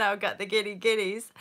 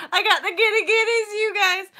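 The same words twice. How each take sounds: First: Said in the usual way. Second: High, loud giddy squeal. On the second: Real, not acted. Vlogger confessing the giggles to viewers, giddy squeal. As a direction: squeal it out, overcome with giddiness.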